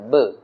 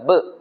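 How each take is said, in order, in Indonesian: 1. Suku katanya berakhir terbuka, tanpa hentian di tenggorokan. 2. Suku katanya berakhir dengan hentian di tenggorokan. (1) "Dia B E sahaja, ba sahaja" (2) "Bukan ba. Macam ada sekatan di belakang tu tak mau"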